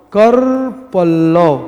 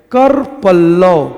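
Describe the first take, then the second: No difference in how they are said.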